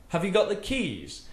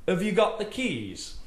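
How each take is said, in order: Both takes have the same delivery.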